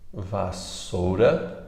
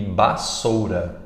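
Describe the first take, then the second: First: The word begins with a v sound. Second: The word begins with a b sound.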